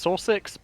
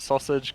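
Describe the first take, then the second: First: The name is said as 'saw-six'. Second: The name is said like 'sausage'. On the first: This is the map's real name. "It's Sausix" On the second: It is said this way as a joke. "I'm just gonna pronounce it sausage because it's funny"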